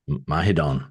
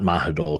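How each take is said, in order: First: The name ends with an N sound. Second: The name ends with an L sound. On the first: The speaker calls it right. "The final L sounds like an N" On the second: The speaker calls it wrong. "it's not Mahidol"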